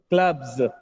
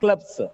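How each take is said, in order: First: The word ends with a buzzing z sound. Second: The word ends with a hissing s sound. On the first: The speaker calls it right. "the last sound is not S, it is Z" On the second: The speaker calls it wrong. "not clubs"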